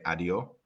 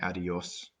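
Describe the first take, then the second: First: The final S sound is dropped. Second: The final S sound is clearly pronounced. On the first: "like the Andalusian accent where you lose the S a lot" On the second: "Instead of saying adios"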